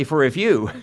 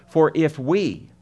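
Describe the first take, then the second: First: For if you, with you pointed and raised; stress on you. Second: For if we, slow with we held and lifted; stress on we. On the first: Preacher contrasting an accusing you with an inclusive we. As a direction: land on you like pointing the finger. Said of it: "He doesn't just say". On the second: Preacher showing the apostle includes himself, stressing we. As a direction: lean on we to include yourself. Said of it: "notice the apostle includes himself". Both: Shown as a demonstration.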